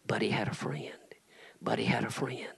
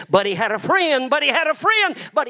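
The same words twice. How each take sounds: First: Breathy whispered repetition. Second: High, loud preacher's shout. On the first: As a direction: hush it like a secret. Repeating the tombstone line, hushed. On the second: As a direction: hurl the refrain at the crowd. Building the refrain to a climax. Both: Acted.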